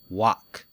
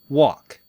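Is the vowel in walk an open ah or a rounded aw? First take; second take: open ah; rounded aw. First: The vowel is an open, unrounded ah. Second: The vowel is a rounded aw sound. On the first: "walk has an ah sound" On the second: "It's between ah and o, and the lips are round"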